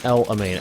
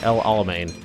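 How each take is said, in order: First: The name is said without the middle 'la' syllable. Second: The name is said with the middle 'la' syllable. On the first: The speaker calls it wrong. "it's not El-Amane" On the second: The speaker calls it right. "Pronounce things correctly"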